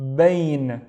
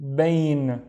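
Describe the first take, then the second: No difference in how they are said.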